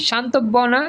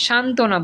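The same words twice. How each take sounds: First: শান্তব্য না with a doubled b, questioning; wrong pronunciation. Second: শান্তনা with a silent ব; correct pronunciation. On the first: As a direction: ask it as shan-tob-bo-na, শান্তব্য না. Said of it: "আমরা কি বলি". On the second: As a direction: say শান্তনা as shan-to-na. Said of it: "শান্তনা বলি". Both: Shown as a demonstration.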